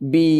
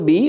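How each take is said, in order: First: The vowel is long. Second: The vowel is short. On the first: The speaker calls it right. "It will be long sound" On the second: The speaker calls it wrong. "বিটা সাধারণত বি"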